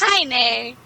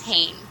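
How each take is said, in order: First: The name is said as two syllables. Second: The name is said as one syllable. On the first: The speaker calls it right. "That would be how it's pronounced" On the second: The speaker calls it wrong. "Or at least that's how I'm pronouncing it. I'm probably pronouncing it, I'm not sure"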